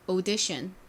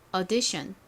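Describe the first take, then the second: First: It starts with an 'o' vowel, British style. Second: It starts with an 'uh' vowel, American style. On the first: "영국식은 앞이 o 발음으로" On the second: "미국식 발음 한번 따라해보세요. 앞이 어 발음으로"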